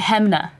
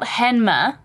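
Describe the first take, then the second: First: The M sound comes before the N sound. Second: The N sound comes before the M sound. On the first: "But people say Hamna" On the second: "it's spelled Hanma"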